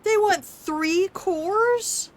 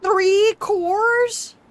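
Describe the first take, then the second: First: Much higher, very slow incredulous question; drawn-out disbelief. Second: Much higher and louder, outraged question; can't believe the price; shocked squeal. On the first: Gamer repeating the cost in slow disbelief. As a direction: stretch every word in disbelief. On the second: Gamer reacting to the research cost, shocked squeal. Game demands three cores. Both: Real, not acted.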